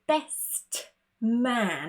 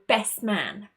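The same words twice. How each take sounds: First: The word 'best' ends with a clear T sound. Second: The lips close for P without sounding it. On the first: The speaker calls it wrong. "It's way too complicated" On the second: The speaker calls it right. "our mouth moves into the position of the letter P, but we don't actually say that sound"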